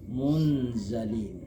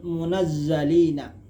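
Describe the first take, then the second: First: The z is single, with no extra syllable. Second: The z is doubled, with an extra syllable. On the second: "munazzalina musyaddaduz zai maftuhatan"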